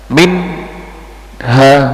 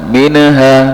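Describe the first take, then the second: First: A short pause separates the n and h. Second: The n sound is bounced with an echo. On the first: "memberikan jeda antara nun sakinah atau tanwin dengan huruf berikutnya" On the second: "memantulkan itu kesalahannya"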